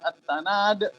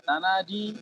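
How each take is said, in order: First: The word ends on a consonant. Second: The word ends with an added long vowel.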